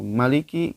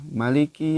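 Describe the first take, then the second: First: The first vowel is held extra long. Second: The first vowel is short. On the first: "Jangan sampai lebih dari satu ayunan. Misalkan maliki" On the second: "membaca maliki itu uh, pendek ya"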